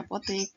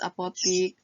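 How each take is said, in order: First: Apotik said as "apotek"; standard form. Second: Apotik ending in "tik"; non-standard form. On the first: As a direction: give apotik an E in the last syllable. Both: Shown as a demonstration. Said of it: "kata bakunya apotik ya".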